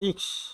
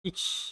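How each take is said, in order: First: The word ends in a quick k-sh sound. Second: The word ends in a quick k-sh sound.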